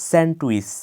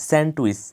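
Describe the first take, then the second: The two takes are said the same way.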